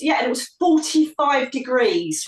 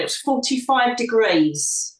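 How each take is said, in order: First: Said in the usual way. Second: "forty-five degrees" said slowly, each word weighted; emphatic repeat. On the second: Shown as a demonstration. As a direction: lean on "forty-five degrees", slow and deliberate. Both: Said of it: "This is important".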